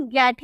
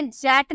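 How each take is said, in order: First: "गेट" with a hard G at the start. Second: "जेट" with a J sound at the start; wrong soft G. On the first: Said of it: "गेट ही बोलते हैं". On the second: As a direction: say "जेट", G turned into English J. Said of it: "हम इसे जेट नहीं". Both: Shown as a demonstration.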